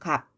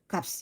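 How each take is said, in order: First: Only the final p consonant is sounded. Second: Both final consonants, p and s, are sounded. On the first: The speaker calls it right. "비읍 발음만 해요. 그래서 갑" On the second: The speaker calls it wrong. "둘 다 발음이 난다고 하면 값 이렇게 발음이 나야 되겠죠"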